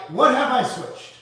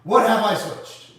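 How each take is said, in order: First: What slow and raised; pointed challenge. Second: What slow, less raised; repeated challenge. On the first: Streamer challenging a commenter, pointed slow question. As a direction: press the word What, slow and higher. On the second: Streamer pressing a commenter again, firm slow question. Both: Real, not acted. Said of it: "I'm gonna ask".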